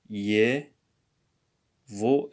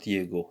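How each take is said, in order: First: The middle consonant is a v sound. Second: The middle consonant is a g sound. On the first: The speaker calls it right. "it's going to be pronounced as ye, vo" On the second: The speaker calls it wrong. "and not yego"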